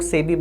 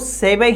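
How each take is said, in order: First: The name is said the English way. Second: The name is said the Japanese way. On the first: "English में वैसे बहुत सारे लोग सेबी बोल देते हैं" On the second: "जापानीज में देखोगे तो इसको सेबे ही वहां पे बोला जाता है"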